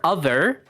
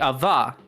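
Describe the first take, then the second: First: The R at the end is pronounced. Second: The R at the end is dropped. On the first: "Some dialects would say some variation of other" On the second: "some would say ava"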